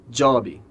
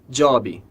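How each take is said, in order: No difference in how they are said.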